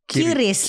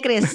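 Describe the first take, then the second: First: A vowel separates the first two sounds: Ki-ris. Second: It begins with a kr cluster, one syllable. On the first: This is the casual reading officials object to. The speaker calls it wrong. "Terus dimarahin nah, sama B I" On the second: This is the official reading. The speaker calls it right. "Saya tahu cara bacanya Chris"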